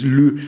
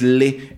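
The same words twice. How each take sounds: First: LE with rounded French schwa, like "lü"; drawn-out, emphatic French "le"; correct French vowel. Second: LE with a plain Spanish E; drawn-out, emphatic Spanish "le"; wrong vowel. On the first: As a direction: round the lips on a long, loud "le". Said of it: "es le, porque". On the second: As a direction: stretch "le" loud, as in Spanish "les". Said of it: "no es, no es le". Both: Shown as a demonstration.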